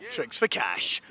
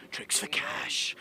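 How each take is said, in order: First: Said in the usual way. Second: Whisper. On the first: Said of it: "said plain then whispered". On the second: Shown as a demonstration. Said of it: "same words whispered next".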